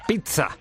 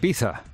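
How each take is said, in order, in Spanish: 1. Se dice con sonidos muy marcados. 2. Se dice de forma sencilla, sin marcas fuertes. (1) "Hay quien lo dice muy muy marcado" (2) "Hay quien dice pizza"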